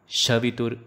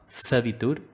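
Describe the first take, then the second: First: The word begins with a sh sound. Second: The word begins with an s sound. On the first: The speaker calls it wrong. "Shavitur is wrong" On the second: The speaker calls it right. "Make sure that you say Sa"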